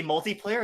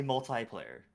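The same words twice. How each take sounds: First: "multiplayer" with multi ending in a tee sound. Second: "multiplayer" with multi ending like tie. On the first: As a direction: say "multiplayer" as mul-tee-player. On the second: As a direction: say "multiplayer" as mul-tie-player. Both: Shown as a demonstration. Contrasting two pronunciations.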